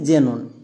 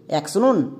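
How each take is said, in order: First: The word begins with a z sound. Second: The word begins with an aks sound. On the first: The speaker calls it right. "শব্দের শুরুতে এক্স থাকলে তার জন্য বর্গীয় যোগ করব" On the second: The speaker calls it wrong. "অ্যাক্সনন নাকি জেনন?"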